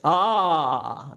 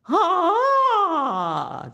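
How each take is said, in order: First: The vowel is voiced low in the chest register. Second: The vowel is voiced high in the head register. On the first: "Now back to chest voice" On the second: "back to head voice"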